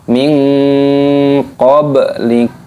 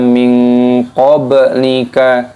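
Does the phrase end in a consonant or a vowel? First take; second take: consonant; vowel. First: The last word ends on a silent consonant. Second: The last word ends with an extra vowel. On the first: The speaker calls it right. "Harus dimatikan" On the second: The speaker calls it wrong. "Jangan dibaca min qablika, tidak boleh"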